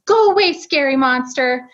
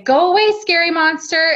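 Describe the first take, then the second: First: Lightly voiced little toddler; preschooler voice. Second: Higher, louder command to a monster; firm parent command. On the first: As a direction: echo it like a small child. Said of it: "in his little toddler voice". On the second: Retold or imitated. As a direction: shoo the monster away firmly. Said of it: "so we say".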